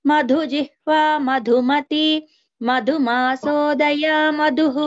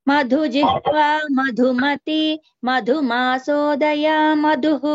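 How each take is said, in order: Both takes have the same delivery.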